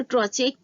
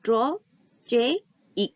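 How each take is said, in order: First: Said in the usual way. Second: "Trochaic" broken into three parts, tro, che, ik, with clear pauses; split into syllables. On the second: Shown as a demonstration. Teacher counting the syllables for students, "Trochaic" pronounced syllable by syllable. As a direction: say "Trochaic" slowly, one separated syllable at a time. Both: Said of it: "कितने syllable होंगे".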